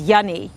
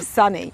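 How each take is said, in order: First: The word begins with a Y sound. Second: The word begins with an S sound. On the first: "George could never say S" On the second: "instead of Sunny"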